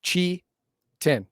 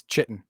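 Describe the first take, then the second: First: Chitin broken into two, "chi... tin"; chi, a beat, then tin; syllable-by-syllable pronunciation. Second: Chitin said CHIT-in; alternative pronunciation. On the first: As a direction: spell out chitin by sound, pausing between syllables. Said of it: "It really is". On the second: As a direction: say chitin with a ch and short i. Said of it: "Actually, it's chitin". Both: Shown as a demonstration.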